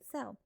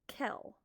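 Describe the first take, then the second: First: The word begins with an s sound. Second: The word begins with a k sound. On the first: The speaker calls it right. "when you see C E together, it makes the S sound" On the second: The speaker calls it wrong. "They make it's the C a k sound"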